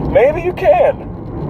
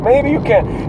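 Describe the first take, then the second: First: High, slow words through laughter; laughing. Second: Said in the usual way. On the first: Real, not acted. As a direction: giggle the words out. Still laughing at own joke.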